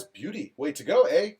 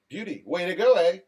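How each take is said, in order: First: Light mock Canadian, "eh" left rising; first go at a Canadian accent. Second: Mock Canadian, "eh" falling at the end; Canadian accent. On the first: Host reads Daniel's comment aloud, in a mock Canadian accent. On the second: Host redoes Daniel's comment, in a mock Canadian accent. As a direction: redo it in a put-on Canadian accent. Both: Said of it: "It's like a northern, southern Canadian".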